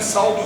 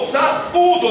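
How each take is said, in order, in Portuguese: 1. As vogais a e u se juntam em uma sílaba. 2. As vogais a e u formam duas sílabas. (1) "não é saldo não" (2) "tem um acento aí"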